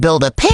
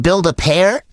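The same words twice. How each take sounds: First: "pair" cracking upward. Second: Said in the usual way. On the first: Retold or imitated. Retelling trash talk to a kid, voice cracking on "pair". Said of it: "my voice cracked". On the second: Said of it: "in the middle of saying".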